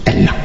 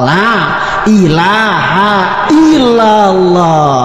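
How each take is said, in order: First: It is rushed and clipped to one short word. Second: It is said slowly with every syllable complete. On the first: The remembrance is hurried carelessly. The speaker calls it wrong. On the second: The remembrance is said properly. The speaker calls it right.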